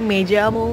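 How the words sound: The double L sounds like an English j. This is how it is said in Latin America. "kalau di Amerika Latin dibacanya tuh kayak J"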